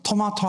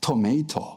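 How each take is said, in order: First: It is said the Korean way, with an 'ma' vowel. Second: It is said the American way, with a 'may' vowel. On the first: "미국 사람들은 토마토 하지 않아요" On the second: "뭐 그렇게 합니다"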